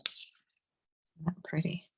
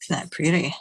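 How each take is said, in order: First: Slow admiring whisper. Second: Said in the usual way. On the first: Real, not acted. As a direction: breathe it out slowly, in awe. Admiring finished stamp.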